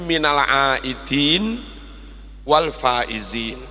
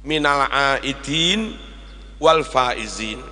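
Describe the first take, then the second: The two takes are said the same way.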